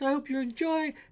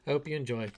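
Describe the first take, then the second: First: It is said louder, with rising volume. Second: It is said at an even, quieter volume.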